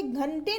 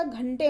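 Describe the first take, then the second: First: घंटे with a full forward n; wrong pronunciation. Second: Said in the usual way. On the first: Shown as a demonstration. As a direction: sound the n of घंटे separately before the t. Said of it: "घंटे नहीं होता". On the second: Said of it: "घंटे होता है".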